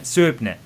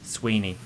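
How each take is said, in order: First: The name is said as written, like 'Soo-ib-nee'. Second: The name is said with a w sound, like 'Sweeney'. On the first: The speaker calls it wrong. "that's what I would say" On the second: The speaker calls it right. "or Sweeney"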